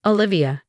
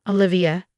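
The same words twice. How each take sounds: First: Mild, practiced HR warmth; warmly. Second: Brief, mildly dismissive interruption; cutting her off. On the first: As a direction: greet her with polite, professional warmth. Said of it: "she said warmly". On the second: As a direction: cut in on her with the name. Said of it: "he cut me off". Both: A narrator's reading.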